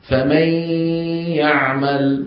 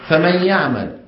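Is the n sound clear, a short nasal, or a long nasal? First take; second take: long nasal; short nasal. First: The n merges into y with prolonged nasality. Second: The n merges into y with brief nasality. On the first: This is how it is recited in the Quran. "الذي زاده القرآن هو تطويل هذه الغنة" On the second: This is how it was said in everyday speech. "كانوا يبقون الغنة بالكلام العادي غير ممطوطة"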